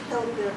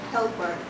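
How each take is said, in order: Both takes have the same delivery.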